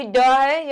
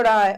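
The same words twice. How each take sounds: First: ड said as a hard retroflex stop; plain ड. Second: ड़ said with a quick retroflex flap of the tongue; flapped ड़. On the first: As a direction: tap out a firm ड, without any flap. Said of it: "ये ड़ है". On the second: Teacher contrasting letters for pupils, flapped ड़. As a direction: flick the tongue for ड़, not a hard stop. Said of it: "देखिए अभी ड है". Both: Shown as a demonstration.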